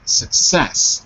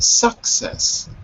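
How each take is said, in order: First: The stress is on the second syllable. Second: The stress is on the first syllable. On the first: The speaker calls it right. "success on the second syllable" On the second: The speaker calls it wrong. "Not success"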